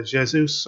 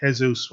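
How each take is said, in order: First: "Jesus" with a French-style J; J pronunciation. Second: "Jesus" begun with an h sound; "Jesus" with a Spanish-style J; H pronunciation. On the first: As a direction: say "Jesus" as zheh-ZOOS. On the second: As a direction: say "Jesus" as heh-ZOOS. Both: Shown as a demonstration. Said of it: "whatever way you want to pronounce his name".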